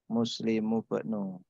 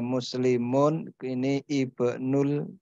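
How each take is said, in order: First: The words are joined and the final n drops. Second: The words are separate and the final n stays. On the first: "karena dibaca lanjut, tanwinnya menjadi hilang" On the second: "kalau dibaca pisah"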